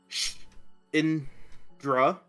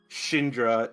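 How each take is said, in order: First: The word is said slowly in separate parts. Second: The word is said smoothly in one go. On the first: "slow like uh voice out the word Shindra" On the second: "in fluent common"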